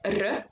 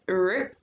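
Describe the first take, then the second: First: The R is rolled with a trill. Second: The R is smooth without a trill. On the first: The speaker calls it wrong. "not like R" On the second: The speaker calls it right. "but R"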